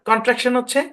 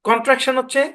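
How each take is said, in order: No difference in how they are said.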